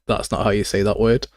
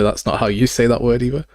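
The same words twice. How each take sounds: First: Said in the usual way. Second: "you" stands out, with a rise at the end; stress on YOU. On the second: Retold or imitated. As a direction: lean on "you", lifting it slightly. Contrasts with the first retort.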